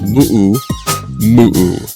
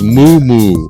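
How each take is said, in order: First: It is said the Hawaiian way. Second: It is said the older, everyday way. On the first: This is how it is said today. "they're all correct pronunciation of Hawaiian nowadays. So it's moo moo" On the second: This is how it was said in the past. "when I was a kid, it was moo moo. That's how I learned it"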